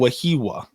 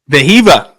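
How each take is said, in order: First: The name begins with a W sound. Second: The name begins with a V sound. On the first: "It's honestly easier than Wahiwa" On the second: "that's the proper way"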